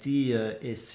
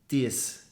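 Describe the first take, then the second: First: The two words are said separately. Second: The two words are merged into one syllable. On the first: "instead of saying uh, dia is" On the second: "She kind of merges those sounds together"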